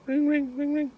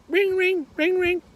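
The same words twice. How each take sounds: First: High-pitched voiced telephone ring; phone ringing imitation. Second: Piercingly high, loud parrot ringing; parrot mimicking phone. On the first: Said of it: "the phone rings". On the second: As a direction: squawk the phone's ring like a parrot. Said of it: "Parrot goes".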